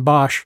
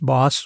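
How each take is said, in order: First: The name ends with an sh sound. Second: The name ends with a plain s sound. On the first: The speaker calls it wrong. "rather than Bosch" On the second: The speaker calls it right. "the correct way of pronouncing that is boss, like be a boss"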